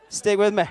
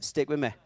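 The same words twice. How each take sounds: First: High, very loud insistence; loud urging. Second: Said in the usual way. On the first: Real, not acted. Preacher urging the congregation to follow, loud urging. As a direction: call it out to win them back. Repeats the request more forcefully.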